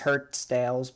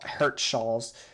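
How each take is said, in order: First: The name ends with a 'dales' sound. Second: The name ends with a 'hals' sound. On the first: The speaker calls it wrong. "I used to call this place Hertsdales because I just could not pronounce it" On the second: The speaker calls it right. "but it is Hertshall"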